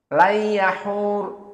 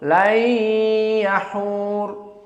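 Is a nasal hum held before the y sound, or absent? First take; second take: absent; held. First: The n merges into y with no nasal hum. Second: A nasal hum is held two beats before y. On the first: This is one reciter's particular reading. "tanpa idgham, afwan, tanpa gunnah" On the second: This is the majority reading. "ada dua harokat gunnah"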